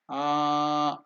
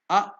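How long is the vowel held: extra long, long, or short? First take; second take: extra long; short. First: The vowel is held for three or more beats. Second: The vowel is held for one short beat. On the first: "if you take more unit of time, it is A, that is Pluta" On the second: "only one unit of time, that is Hrasva"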